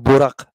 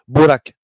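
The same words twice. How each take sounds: First: The vowels sound like the name Buraq. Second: The vowels sound like the word Baraka. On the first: It names the prophet's winged mount. The speaker calls it wrong. "pas Borak, comme le, le- le- le- la licorne du prophète, non" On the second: It means blessing. The speaker calls it right. "comme Barak, Baraka, euh, la Baraka, quoi, la bénédiction"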